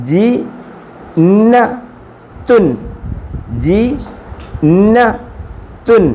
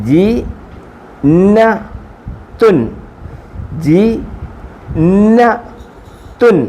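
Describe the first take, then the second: The two takes are said the same way.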